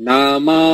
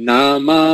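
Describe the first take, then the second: The two takes are said the same way.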